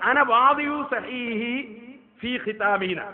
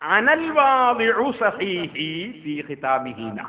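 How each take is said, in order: First: It is said without 'al' before 'wadi'u'. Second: It is said with 'al' before 'wadi'u'. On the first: The speaker calls it wrong. "ഇയാള് വായിച്ചത്" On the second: The speaker calls it right. "ഉള്ളതെന്താ?"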